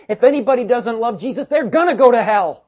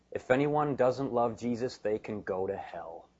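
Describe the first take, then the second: First: Loud, high, forceful declaration; emphatic. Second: Quiet restatement. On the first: Preacher voices Paul's own handwritten warning, loud and emphatic. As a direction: drive the warning home at full volume. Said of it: "because he's emphatic about this". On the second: Preacher puts Paul's curse bluntly to the church, quietly. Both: Retold or imitated.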